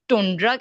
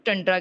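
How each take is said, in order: First: The first vowel sounds like 'oo'. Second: The first vowel sounds like 'uh'. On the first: "कुछ लोग टुंड्रा कहते हैं" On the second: "कुछ टंड्रा कहते हैं"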